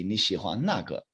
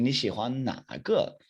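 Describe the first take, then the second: First: 那 in 那个 short with a falling tone; fourth tone statement. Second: 哪 in 哪个 drawn out and dipping, slight pause before 个; third tone question. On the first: Teacher telling "you like that one", falling tone on 那. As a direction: tell it, dropping straight down on 那. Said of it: "if I'm telling you". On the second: Teacher contrasting the question, slower dipping 哪 with a pause. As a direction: ask it, lingering on a dipping 哪. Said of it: "a little bit of a pause, it goes a little bit slower". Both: Shown as a demonstration.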